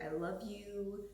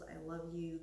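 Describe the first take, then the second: First: Loving affirmation. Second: Said in the usual way. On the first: Shown as a demonstration. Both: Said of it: "rub your belly and be like".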